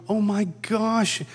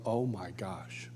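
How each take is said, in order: First: Higher, slow marveling oh my gosh; awestruck. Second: Soft, slow, breathless oh my gosh; hushed awe. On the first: Realizing the anger is really a huge smile, awestruck. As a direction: savor it in wonder. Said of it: "I'm going". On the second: Seeing Jesus descend over the circle, hushed awe. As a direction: let the awe drain your voice to a hush. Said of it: "and I go". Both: Retold or imitated.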